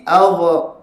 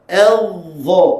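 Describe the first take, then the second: First: "Allah" as adh, cut short with a bouncing dha; faulty qalqalah. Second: "Allah" as adh, the dha sustained and smooth; breath held, sound released. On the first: Teacher shows the wrong way, bounced short "Allah". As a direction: release the end of "Allah" early so it echoes. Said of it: "Kalau gini". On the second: Teacher shows the right still letter, held ending on "Allah". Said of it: "Tahan nafas, lepas suara". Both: Shown as a demonstration.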